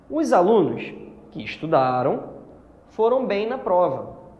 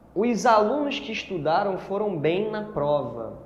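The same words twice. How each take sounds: First: Pauses set off the clause with a changed intonation. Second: The sentence flows without pauses around the clause. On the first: All the students studied, so they did well. "se eu coloco umas vírgulas aqui e mudo a minha entonação" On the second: Only the students who studied did well. "você tem aqui uma restritiva"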